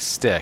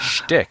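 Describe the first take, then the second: First: The word begins with a plain 's' sound. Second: The word begins with an 'sh' sound. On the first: The speaker calls it wrong. "did he just say, like, stick?" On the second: The speaker calls it right. "It's shtick, isn't it?"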